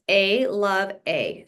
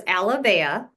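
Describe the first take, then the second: First: "A Love A" slowly, as three separate words; broken into parts. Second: Said in the usual way. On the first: Shown as a demonstration. Guest explaining the company's name, "A Love A" said slowly word by word. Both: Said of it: "It's A Love A".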